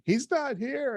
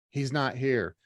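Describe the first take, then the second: First: Imitating a tearful phone call, much higher pitch; high, lightly acted crying wail; mock crying. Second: Said in the usual way. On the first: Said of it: "she calls me crying". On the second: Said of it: "she's texting me".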